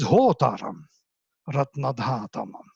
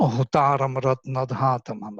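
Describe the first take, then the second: First: The raised syllables break the iambic beat. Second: The words follow a regular iambic beat. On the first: The speaker calls it right. "doesn't fit into iambic rhythm" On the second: The speaker calls it wrong. "There is no"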